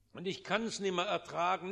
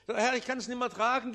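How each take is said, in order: First: Said in the usual way. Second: Louder, faster cry of "Herr, ich kann's nimmer tragen"; anguished plea to God; urgent outcry. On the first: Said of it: "repeated lament, first take". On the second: Acted. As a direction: push it out in a rush, pleading. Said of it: "repeated lament, second take".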